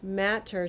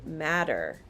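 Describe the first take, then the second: First: The middle consonant is a clear T sound. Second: The middle consonant is a soft D sound.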